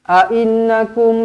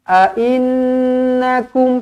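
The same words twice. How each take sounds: First: It is rushed, with the nasal sound cut short. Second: It is unhurried, with the nasal sound held longer. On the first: The speaker calls it wrong. "Tak nak laju-laju baca" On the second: The speaker calls it right. "pastikan nun di sini dengungkan cukup dua harakat"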